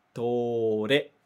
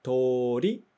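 First: Tore with the final re clearly pronounced; tore, showing the new e sound; ending re. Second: Tori with the final ri clearly pronounced; Tori, pointing out the i sound; ending ri. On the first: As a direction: make the change to re audible in tore. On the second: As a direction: stress the ri at the end of Tori. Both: Shown as a demonstration. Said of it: "Ri, re".

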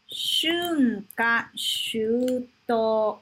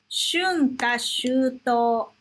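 First: Shunka shuto drawn out, each syllable long; very slow model pronunciation. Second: Shunka shuto said slowly, syllable by syllable; slow model pronunciation. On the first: Teacher showing students Shunka shuto, very slow and clear. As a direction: stretch Shunka shuto out very slowly. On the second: Teacher showing students Shunka shuto, slow and clear. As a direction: spell out Shunka shuto for learners. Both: Shown as a demonstration. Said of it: "deixa eu te mostrar uma coisa".

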